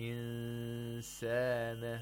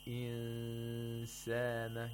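First: The n is hidden with a long nasal sound. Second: The n is hidden with a long nasal sound.

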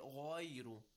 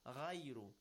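First: The first consonant is heavy and full. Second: The first consonant is light and flattened. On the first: The speaker calls it right. "If I recite it with تَفْخِيم" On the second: The speaker calls it wrong. "if I recite it with تَرْقِيق, which is the wrong way in this case, ... a flattened غَيْن"

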